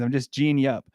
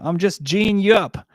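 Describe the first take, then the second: First: Said in the usual way. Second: Put-on slow, higher Australian accent; Australian slang. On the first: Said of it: "non-Australians don't even know what it means". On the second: Australian accent, teasing the chat about local slang. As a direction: lean into the Aussie twang, teasing. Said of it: "Which just means I'm winding you up".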